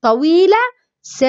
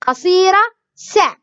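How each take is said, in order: First: سا stretched into a long saa; long vowel. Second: سا clipped short, a quick sa; short vowel. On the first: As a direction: hold the a of سا out long. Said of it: "بعدين نقول طويلة". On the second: Teacher drills the short vowel in سا, clipped and quick. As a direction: snap سا off quickly. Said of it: "يلا نقول قصيرة". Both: Shown as a demonstration.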